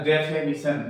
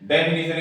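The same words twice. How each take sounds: First: डेफिनेशन with middle vowel turned to "e"; reduced "fe" in the middle of डेफिनेशन; weak form. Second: Said in the usual way. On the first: Shown as a demonstration. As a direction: say डेफिनेशन as "de-fe-ni-shan". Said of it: "की जगह हो जाएगा". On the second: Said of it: "डेफिनेशन की जगह हो जाएगा".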